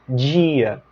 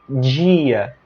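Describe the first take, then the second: The two takes are said the same way.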